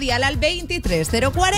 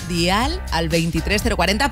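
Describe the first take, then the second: First: The phrase is said at a fast pace. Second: The phrase is said at a slow pace. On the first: The speaker calls it wrong. "Me ha dicho muy rápido" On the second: The speaker calls it right. "Lo digo despacio"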